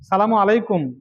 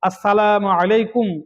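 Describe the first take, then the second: First: The greeting is slurred, with sounds dropped. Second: The greeting is pronounced clearly and fully. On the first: It turns into a curse wishing death. The speaker calls it wrong. "ইত্যাদি বলা গুনাহ" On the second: It is a proper wish of peace. The speaker calls it right. "স্পষ্ট করে বলতে হবে"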